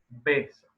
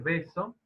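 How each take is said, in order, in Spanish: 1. La b es una oclusiva completa, con los labios cerrados. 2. La b es una aproximante suave, sin cerrar los labios. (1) "Es claramente bilabial" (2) "Ese beso es aproximante"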